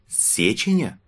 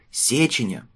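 First: Puzzled question. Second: Confident shout, falling at the end; firmly name the sender; boy courier voice. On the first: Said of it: "недоумевая спросил Тарталья". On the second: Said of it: "крикнул мальчишка-курьер". (мальчишка-курьер уверенно выкрикивает) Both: A narrator's reading.

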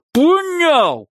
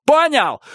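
First: Even higher screamed repeat. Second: Yelled high and loud; screamed question. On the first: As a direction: scream it again, harder. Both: A narrator's reading. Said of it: "повторил он".

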